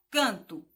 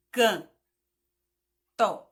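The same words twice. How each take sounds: First: Said in the usual way. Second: "can-" then a pause, then "to", both louder; split into syllables. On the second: Shown as a demonstration. Teacher syllabifies "canto" for children, louder, with a pause. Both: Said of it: "quando tia diz".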